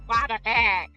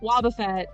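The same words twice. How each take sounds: First: It is said in the cartoon Wobbuffet voice. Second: It is said in a normal speaking voice.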